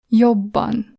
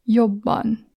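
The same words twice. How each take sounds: First: "Jobban" with the bb pressed long; long double b. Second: "Jobban" with the bb held long; long double b. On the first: Teacher repeating the long double consonant, held. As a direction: lean on and stretch the bb in "Jobban". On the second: Teacher showing the long double consonant, holding it. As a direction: press and hold the bb in "Jobban". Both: Shown as a demonstration. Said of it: "So you press it longer".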